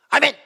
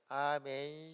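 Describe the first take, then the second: First: It is said short, loud and forceful. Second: It is said weakly and drawn out.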